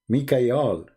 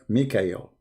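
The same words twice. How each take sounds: First: The name ends with an 'al' sound. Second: The name ends with an 'el' sound. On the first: This is the ancient form of the name. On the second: This is the later form of the name.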